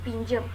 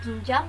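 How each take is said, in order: First: The last vowel is an 'e' sound. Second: The last vowel is an 'a' sound. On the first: The speaker calls it wrong. "maka disebutkan menjadi pinjem" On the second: The speaker calls it right. "yang seharusnya katanya itu adalah pinjam"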